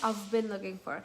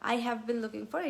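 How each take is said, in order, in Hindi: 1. I have जल्दी बोला जाता है, संकुचित होकर I've बन जाता है। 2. I have पूरा और धीरे बोला जाता है।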